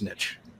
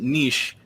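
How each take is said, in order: First: It is said the American way. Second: It is said the non-American way. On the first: "and then it's niche" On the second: "You pronounce it niche unless you're in America"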